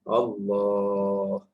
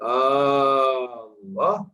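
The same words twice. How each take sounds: First: The first vowel is short. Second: The first vowel is long. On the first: It is simply the name of God. The speaker calls it right. "alif tak boleh panjang" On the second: It asks whether it is God. The speaker calls it wrong. "a panjang tu maknanya dia ada alif Allah dengan alif yang inilah"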